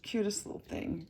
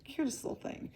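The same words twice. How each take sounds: First: Said in the usual way. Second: "cutest little thing" whispered, higher. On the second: Real, not acted. Fond repeat of cute figure.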